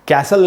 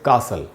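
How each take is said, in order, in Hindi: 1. पहला स्वर 'cat' के स्वर जैसा बोला जाता है। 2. पहला स्वर 'father' के स्वर जैसा बोला जाता है। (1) "इसको कैसल नहीं पढ़ना चाहिए" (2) "इसलिए इसको हम पढ़ेंगे कासल"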